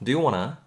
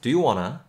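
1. "Want to"는 빠르게 발음되며 연음되어 "wanna"가 됩니다. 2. "Want to"는 빠르게 발음되며 연음되어 "wanna"가 됩니다.

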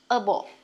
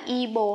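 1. Nguyên âm đầu đọc giống 'uh'. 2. Nguyên âm đầu đọc giống 'ih'. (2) "mình không đọc là y bồ"

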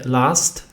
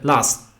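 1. Końcowe T jest w pełni wymawiane. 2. Końcowe T staje się zwarciem krtaniowym. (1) "nie powiemy last" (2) "T jest na końcu, dlatego też będzie traktowane jako... tylko powiemy last"

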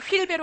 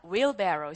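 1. 한국식 음절로 평평하게 발음해요. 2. 영어 원어민 발음으로 해요. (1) "제발 어디 가서 촌스럽게 휠베로 하지 마세요" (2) "이런 느낌이야"

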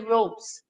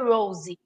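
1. Não se ouve nenhum som de vogal depois do s final. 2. Ouve-se um som de vogal depois do s final. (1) "vai ser Rose, porque ele é um E silencioso" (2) "não vai ser Rose"

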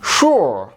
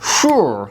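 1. এটি এক সিলেবলে উচ্চারিত হয়, shoor। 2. এটি এক সিলেবলে উচ্চারিত হয়, shoor।

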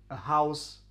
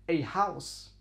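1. Das Wort 'a' ist ein schwacher 'uh'-Laut. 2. Das Wort 'a' ist ein voller 'ay'-Laut. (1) "Wir werden also das Ö normalerweise mit einem sogenannten Schwa aussprechen" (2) "wenn wir das Wort betonen wollen, ... dann sagen wir"

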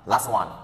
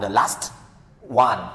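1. Âm t bị bỏ đi và các từ nối liền nhau. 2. Âm t được dừng lại, có một khoảng ngắt trước one. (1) "cho dạy hơn" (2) "Nghe nó bị khựng lại mà nó không được cho dạy mọi người"

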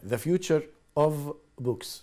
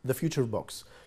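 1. تُنطق كل كلمة على حدة وبوضوح. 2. تُنطق الكلمات متصلة ببعضها كوحدة واحدة. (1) "مش هما ثلاث كلمات" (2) "واحدة"

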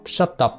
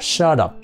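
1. Chữ t nối sang up như t rõ. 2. Chữ t nối sang up như d mềm. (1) "nhưng mà họ không đọc là shut up nha" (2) "người Mỹ đọc thành đà. Thành ra họ đọc là shut up, đập"

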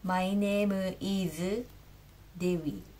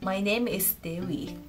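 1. Diucapkan dengan bunyi katakana Jepang. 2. Diucapkan dengan bunyi bahasa Inggris.

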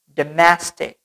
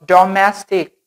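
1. Vokal pertama direduksi jadi schwa. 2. Vokal pertama itu vokal penuh. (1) "tapi dem" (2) "Not domestic. Bukan dibaca domestic"

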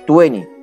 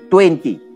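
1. Se dice al estilo americano reducido. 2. Se dice completa, como la marca Tuenti. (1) "le digo 20" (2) "No digo 20"

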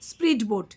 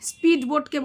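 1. প্রথম শব্দটি একটি spr ধ্বনি দিয়ে শুরু। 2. প্রথম শব্দটি একটি সাধারণ sp ধ্বনি দিয়ে শুরু। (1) "বলছে স্প্রিড বোট" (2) "স্পিড বোটকে বলছে"

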